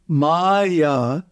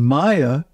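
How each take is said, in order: First: The vowels are held long. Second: The vowels are said short. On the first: The word means illusion. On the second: The word means made of.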